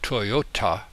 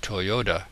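First: The last consonant is said as a clear T. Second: The last consonant is softened into a D.

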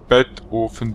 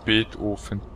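First: The name is split into 'Bett' and 'Ofen'. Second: The name is said in its usual way.

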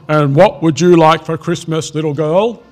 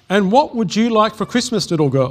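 First: It is read in a put-on Santa voice. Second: It is read in the narrator's plain voice. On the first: The speaker calls it right. "I will do a Santa voice" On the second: The speaker calls it wrong. "Oh, sorry"

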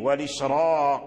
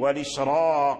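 First: The r is pronounced heavy and full. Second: The r is pronounced heavy and full.

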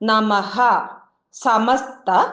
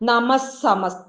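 First: The words are separated, ending the first with visarga. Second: The words run together with a doubled s sound. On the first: "പദം പിരിച്ചു നോക്കാം" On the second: "ആ സായെ double സായായിട്ട് വേണം നമ്മൾ ഉച്ചരിക്കാനായിട്ട്"

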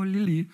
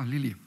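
First: The name is said warmly, with delight. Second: The name is said flatly, without interest. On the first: The speaker is charmed by the dog. "alle waren so, oh" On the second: The speaker feels no connection to the dog. "Also es war so wenig Verbindung da"

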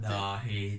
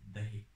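First: The first vowel is drawn out long. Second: The first vowel is kept short. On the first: The speaker calls it wrong. "Dahi değil" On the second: The speaker calls it right. "uzun a yok Türkçe'de artık"

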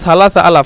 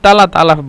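First: The first word begins with an s sound. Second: The first word begins with a t sound. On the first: This is the original standard form. "মূলত সালাসা আলাফ" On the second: This is how Egyptians say it. "লাকিন তালাত আলাফ বলে"

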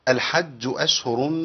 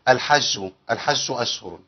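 First: The jim is a firm, clear j sound. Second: The jim is softened toward a sh sound.

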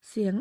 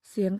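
Both takes have the same delivery.

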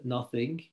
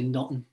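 First: The word is said in a standard accent. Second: The word is said quickly in a Liverpool accent. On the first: "we don't say nothing for nothing" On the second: "We say nothing. And we say it very quickly"

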